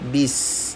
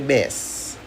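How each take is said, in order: First: The syllable is said with a clear I vowel. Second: The syllable is said with an E vowel. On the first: The speaker calls it right. "Pertama di sini ada bis" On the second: The speaker calls it wrong. "jangan sampai bes"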